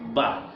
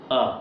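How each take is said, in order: First: The lips close, giving a clear b sound. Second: The mouth stays open, giving only a vowel. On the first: The speaker calls it right. "Mesti melalui bibir" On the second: The speaker calls it wrong. "saya buka mulut, boleh tak saya sebut huruf ba? ... Tak bunyi huruf ba"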